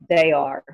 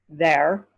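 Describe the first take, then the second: First: It is said as two full words. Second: It is said as one contracted word. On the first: "They are. Turns to there" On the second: "there is reduced to there"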